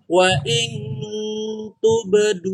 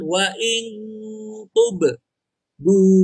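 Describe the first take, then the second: First: The last word flows on without a break. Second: A short break splits the last word. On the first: The speaker calls it right. "Jadi tub du langsung lanjut" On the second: The speaker calls it wrong. "Jangan wa in tub du"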